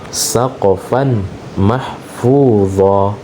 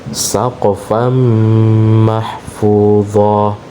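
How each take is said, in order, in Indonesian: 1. Huruf n dilafalkan terpisah sebelum m. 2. Huruf n melebur menjadi m yang bersengau. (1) "keliru ya apabila ada orang baca saqafan ... tanwin di sini dia tidak lebur" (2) "maka dibaca saqafan mahfudha"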